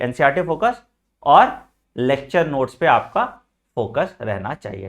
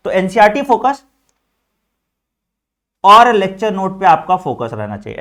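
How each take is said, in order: First: Slow deliberate repeat, each chunk separated by pauses; slow spaced repeat. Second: Louder, punching NCERT and focus hard; loud emphatic teacher line, focus stressed strongly; loud emphatic first take. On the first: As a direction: lower and slower, with a pause after "और". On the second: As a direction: say "NCERT focus" like a teacher hammering the point home. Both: Shown as a demonstration.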